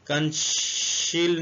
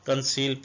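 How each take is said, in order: First: The c is said with an sh sound. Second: The c is said with an s sound. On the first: The speaker calls it wrong. "इसको हम कंशील नहीं पढ़ेंगे" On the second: The speaker calls it right. "इसको कंसील पढ़ेंगे"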